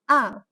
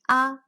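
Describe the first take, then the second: First: The pitch drops sharply and stops short. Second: The pitch stays level and flat. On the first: "The fourth tone, also known as a descent tone" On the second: "The first tone, also known as flat tone"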